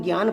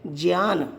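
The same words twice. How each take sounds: First: ज्ञान said as gyaan, with a hard g and y; the common ग्यान way of saying ज्ञान; ज्ञान को ग्यान बोलें; popular gyaan pronunciation. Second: ज्ञान said as jnyaan, starting with j; the pure ज्ञान, j before the y sound; ज्ञान को ज्यान बोलें, शुद्ध उच्चारण; correct Sanskrit pronunciation. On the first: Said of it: "जबकि वास्तव में ज्ञान नहीं होकर के". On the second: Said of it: "वास्तव में ज्ञान नहीं होकर के क्या है". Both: Shown as a demonstration.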